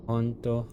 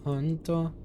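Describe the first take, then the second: First: Said in the usual way. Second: "honto" echoed much higher, in a put-on voice; playful high "honto"; high repeat. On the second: Shown as a demonstration.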